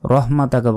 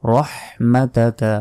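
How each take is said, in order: First: "রহমাতাকা" run through quickly with a weak h; ভুল উচ্চারণ. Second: "রহমাতাকা" slowly, with heavy "roh" and audible throaty h; হা স্পষ্ট করে. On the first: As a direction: clip through "রহমাতাকা" in plain Bengali sounds. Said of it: "বলবেন না". ("রহমাতাকা" দ্রুত, হালকা হা দিয়ে) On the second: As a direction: linger on the h in "রহমাতাকা". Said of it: "হার উচ্চারণ করতে হবে". ("রহমাতাকা" ধীরে, বড় হা স্পষ্ট করে) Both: Shown as a demonstration.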